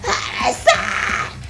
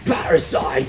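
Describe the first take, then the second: First: It is screamed in a thin, strained voice. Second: It is screamed in a deep, aggressive voice.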